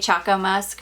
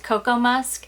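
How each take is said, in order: First: The first word begins with a ch sound. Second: The first word begins with a k sound. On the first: It follows the first half of the word chocolate. The speaker calls it right. "I'm gonna say Choco Musk because it it's the first half of the word chocolate" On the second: Someone else said it should be pronounced this way. The speaker calls it wrong. "somebody told me that it's supposed to just be said spelled or pronounced Cocoa Musk"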